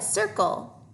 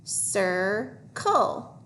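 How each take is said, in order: First: Said in the usual way. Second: "Circle" stretched into sir, pause, cull; syllable by syllable. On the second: Shown as a demonstration. Teacher decoding with pupils, syllable by syllable. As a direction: sound out "Circle" in two slow parts. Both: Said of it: "Let's try to read this".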